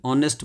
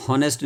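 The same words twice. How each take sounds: First: ऑनेस्ट starting on the vowel; ऑनेस्ट opening on "on"; silent H. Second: हॉनेस्ट with an audible h at the start; हॉनेस्ट opening on "ho"; H wrongly sounded. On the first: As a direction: drop the h entirely in ऑनेस्ट. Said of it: "ऑनेस्ट बोलेंगे". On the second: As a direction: breathe out the h in हॉनेस्ट. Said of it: "हॉनेस्ट नहीं बोलेंगे". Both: Shown as a demonstration.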